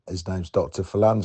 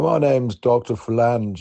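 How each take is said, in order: First: It is said in his normal voice. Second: It is said in a posh character voice.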